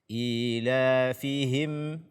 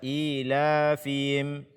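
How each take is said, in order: First: The h in the last syllable is clear. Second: The h in the last syllable is dropped. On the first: The speaker calls it right. "membaca ha dengan jelas" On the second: The speaker calls it wrong. "Jangan dibaca ilafihim, fim, fim, tidak"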